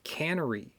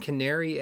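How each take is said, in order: First: The first vowel sounds like in 'can'. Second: The first vowel sounds like in 'care'. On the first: The speaker calls it wrong. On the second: The speaker calls it right.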